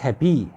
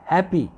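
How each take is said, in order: First: The stress is on the second syllable. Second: The stress is on the first syllable. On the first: The speaker calls it wrong. "not happy" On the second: The speaker calls it right. "stress will always be on the first syllable"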